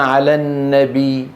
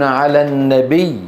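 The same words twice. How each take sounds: First: على النبي ending on a single light ya; one ya, wrong stop. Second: على النبي with the ya pressed at the stop; pressed doubled ya. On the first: Teacher to students, the wrong stop on النبي. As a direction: let the doubled ya in النبي collapse to one. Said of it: "آه، ياء واحدة". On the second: Teacher to students, the correct pressed stop on النبي. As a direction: lean into the ya of النبي. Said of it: "يقفون بالضغط على هذه الياءات". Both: Shown as a demonstration.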